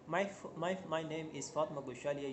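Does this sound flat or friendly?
flat. The voice sounds flat and serious. The speaker seems uninterested. The speaker calls it wrong. "Now this is serious, not interesting one"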